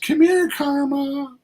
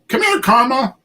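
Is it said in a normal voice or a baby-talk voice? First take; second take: baby-talk voice; normal voice. First: It is said in a high baby-talk voice. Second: It is said in a normal voice.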